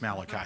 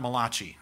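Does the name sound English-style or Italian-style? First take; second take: English-style; Italian-style. First: The name is given a plain English pronunciation. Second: The name is given an Italian-sounding pronunciation. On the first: The speaker calls it right. "It's Malachi" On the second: The speaker calls it wrong. "it's not Malachi, okay? ... he wasn't an Italian prophet"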